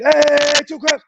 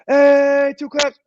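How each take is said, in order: First: Coach's clap call repeated. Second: Coach's clap call. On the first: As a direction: demand the second try with more fire. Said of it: "Let's try it again". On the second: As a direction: bark the two-clap cue at a hundred players. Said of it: "So I'm gonna go". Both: Shown as a demonstration.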